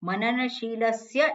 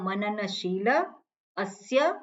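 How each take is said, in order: First: It is said as one joined word. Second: It is split in two with a break. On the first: The speaker calls it wrong. "એવું નહીં" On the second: The speaker calls it right. "પણ મનનશીલ અસ્ય ... એવી રીતે એને જુદું કરવાનું છે"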